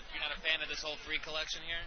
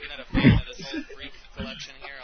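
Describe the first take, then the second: First: It is said at a normal pace. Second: It is said more slowly.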